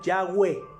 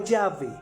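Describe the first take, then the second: First: The middle consonant is a w sound. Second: The middle consonant is a v sound. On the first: The speaker calls it right. "sino con W" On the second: The speaker calls it wrong. "no Yahvé, con V"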